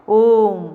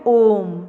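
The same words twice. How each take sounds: First: ओम with the ओ stretched to triple length; prolonged vowel. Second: ओम with the ओ drawn out very long; prolonged vowel. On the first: Teacher repeating the drawn-out ओ in ओम. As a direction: draw the ओ of ओम out long, then close on म. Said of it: "तो ये हो गया प्लुत स्वर". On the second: Teacher showing students the long ओ in ओम. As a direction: hold the ओ in ओम for three beats. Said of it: "तो हम ओ बहुत लंबा ले जाते हैं". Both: Shown as a demonstration.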